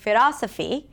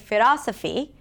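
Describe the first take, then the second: First: The L is a quick tongue tap. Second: The L is a quick tongue tap.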